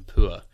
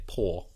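First: "poor" as "poo-uh", gliding vowel; RP ua sound. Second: "poor" as "paw", one long vowel; shifted to or. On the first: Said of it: "rather than poor". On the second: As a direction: say "poor" with an "or" sound, less posh. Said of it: "the ua sound can shift to or". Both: Shown as a demonstration.

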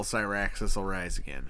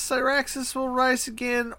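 First: Low, worn-out, soft priest; like a man put through hell; exhausted priest. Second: High, manic cultist chant; crazy cultist. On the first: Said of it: "normal priest dude that just got put through hell". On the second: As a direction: rant it like a crazed zealot. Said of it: "is he saying it like crazy cultist". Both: Shown as a demonstration.

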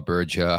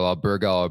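First: Alberga with a soft g, as in 'gem'; soft g pronunciation. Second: Alberga with a hard g, as in 'go'; hard g pronunciation. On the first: Host offers name options, Alberga with soft g. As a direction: say Alberga as al-BER-ja. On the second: Host offers name options, Alberga with hard g. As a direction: say Alberga as al-BER-ga. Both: Shown as a demonstration. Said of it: "Take your pick".

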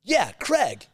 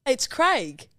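First: "Craig" said Krag with a flat American a. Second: "Craig" said Krayg with the Australian ay. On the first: Australians mocking the American way to say Craig, higher and louder. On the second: Australian insisting on the proper Craig, long ay vowel. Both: Shown as a demonstration. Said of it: "the way Americans pronounce the name Craig".

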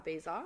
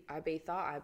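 First: "Ibiza" with a buzzed z, tune rising. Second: "Ibiza" with th in place of z. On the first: Trying the other version on a friend, "Ibiza" with z. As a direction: say "Ibiza" with a z, -BEE-za. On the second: Listing trip stops to a friend, "Ibiza" with th. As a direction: say "Ibiza" as eye-BEE-tha. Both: Shown as a demonstration. Tries both pronunciations of Ibiza.

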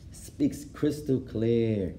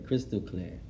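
First: Crystal clear stretched very slowly; drawn-out praise. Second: Said in the usual way. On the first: Shown as a demonstration. Praising the sheikh's Arabic, said slowly and with relish. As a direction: savour each word, slow and admiring. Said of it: "praising the sheikh's clear Arabic". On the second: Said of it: "echo of the praise".

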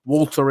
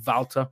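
First: Said in the usual way. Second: Walter with an opening V sound instead of W; V pronunciation. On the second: Shown as a demonstration. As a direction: correct Walter to "Val-ter". Corrects own W to a V.

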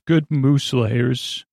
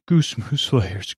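First: GOOD said slowly, ending in a clear D; slow, careful "Good" after a tongue slip; corrected wording. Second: GOOSE said for "good", rhyming with mousse; slow slip on "goose", breaking into a laugh; tongue slip. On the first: Reviewer correcting the slip about cake layers, careful "Good". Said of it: "Goose, good mo". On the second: Reviewer fumbling praise of the cake's layers, tongue slip on "goose". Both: Real, not acted.

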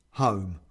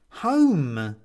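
First: HOME low, short and falling; a low nodding HOME of assent; agreeing. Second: HOME louder and drawn out; insistent. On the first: The man agrees with the woman on Home, low and settled. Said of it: "nods the man". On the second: The woman demands to go Home, insistently. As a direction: insist on HOME, long and loud. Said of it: "insists the woman". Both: A narrator's reading.

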